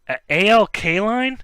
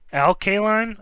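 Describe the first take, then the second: First: The first name is read as two separate letters. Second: The first name is said as one word. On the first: The speaker calls it wrong. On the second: The speaker calls it right.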